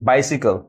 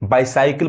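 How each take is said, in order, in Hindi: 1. दूसरा अक्षर 'sih' जैसा सुनाई देता है। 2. दूसरा अक्षर 'sigh' जैसा सुनाई देता है। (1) "ई साउंड पढ़ाता है" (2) "बाइसाइकिल बहुत लोग पढ़ते हैं, गलत"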